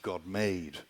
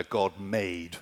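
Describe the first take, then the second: First: "God made." softly, falling firmly on made; stress on made. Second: "God made?" with a questioning lift on made; stress on made. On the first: Preacher sums up the emphasis for the congregation, falling stress. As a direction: settle the word made as a quiet conclusion. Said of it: "That's the emphasis". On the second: Preacher shows the congregation the verb, questioning stress. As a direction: point the listeners to the verb made. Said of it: "Do you see the, the verb there". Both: Shown as a demonstration.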